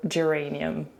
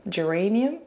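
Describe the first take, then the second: First: Said in the usual way. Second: "Geranium?" with a rising, unsure tune; questioning pronunciation. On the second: Real, not acted. Testing the word aloud for viewers, with a questioning rise. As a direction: ask "Geranium?" as if checking the word.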